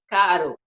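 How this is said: The R is a weak tapped R.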